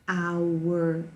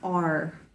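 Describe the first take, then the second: First: It is the full form, sounding like 'hour'. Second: It is reduced, sounding like 'ar'. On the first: "they don't make all these sounds like hour" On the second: "They say kind of like our"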